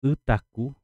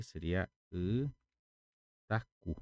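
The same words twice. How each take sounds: First: Itacu called out higher and louder; loud clear model. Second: Itacu dragged out very slowly as she writes; slow spelled-out word. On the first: Teacher presenting the new word to students, loud and clear. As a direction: announce Itacu clearly to the class. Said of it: "itacu é água quente". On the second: Teacher writing the word on the board, very slow. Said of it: "Vou colocar aqui". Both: Shown as a demonstration.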